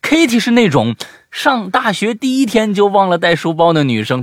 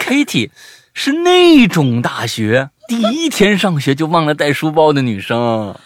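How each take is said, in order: First: 那种 set apart from 上大学第一天, loud and high; high, loud demo grouping 上大学第一天 together; separated reading. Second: 那种大学 punched loud as one joined phrase; loudly group 那种大学 together, stressing 那; loud demo with 那种大学 as one unit; first words run together. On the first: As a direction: loudly split 那种 off from 上大学第一天. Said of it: "还有一种念法是". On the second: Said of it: "如果前四个字儿连起一起念". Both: Shown as a demonstration.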